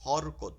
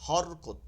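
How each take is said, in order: First: The word is said with Bengali-style vowels. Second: The same.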